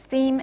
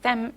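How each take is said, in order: First: The vowel is said as a free vowel. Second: The vowel is said as a checked vowel. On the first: "the vowel is free" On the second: "If it was checked, you would have a different pronunciation"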